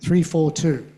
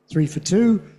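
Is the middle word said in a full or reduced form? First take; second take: full; reduced. First: The middle word is strong and full. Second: The middle word is weak and reduced. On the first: It is a bus number. "this bus is three four two" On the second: It is a bookstore offer. "special offer in a bookstore"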